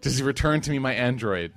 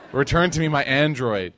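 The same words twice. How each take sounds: First: Said in the usual way. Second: Louder hammed-up plea; mock pleading. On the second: Preacher mimicking a woman praying for her lost phone, mock pleading. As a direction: beg for the phone like a desperate prayer. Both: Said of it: "making dua".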